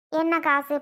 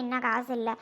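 First: என்ன காசு snapped out loud; sharp retort. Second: Bitter murmur. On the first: Mother hits back at the daughter's money excuse, loud. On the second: Mother laments to her daughters about having no money, low and bitter. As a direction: let என்ன காசு இல்ல sink down, defeated. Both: Acted.

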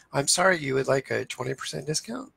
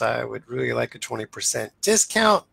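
First: "discount?" lifted into a questioning rise; mirrored back as a question. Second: Said in the usual way. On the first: Shown as a demonstration. Negotiator mirroring the customer's request back, questioning rise. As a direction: repeat "you would like a twenty percent discount?" back with a rising, curious question tune. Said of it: "you say". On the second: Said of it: "if a customer says".

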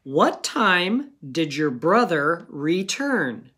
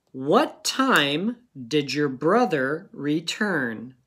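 First: What time did your brother return said slowly, word by word; slow dictation. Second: What time did your brother return said slowly, every word clear; slow dictation again. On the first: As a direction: read the sentence slowly, as dictation. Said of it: "here's your sentence". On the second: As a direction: read it once more, slowly, for the children to write. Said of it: "go ahead and pause it". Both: Shown as a demonstration.

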